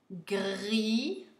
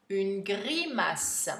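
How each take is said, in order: First: "grimace" slowly split into syllables with pauses. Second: Said in the usual way. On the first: Shown as a demonstration. Teacher dictating to pupils, syllable by syllable. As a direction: break "grimace" into separate, drawn-out syllables.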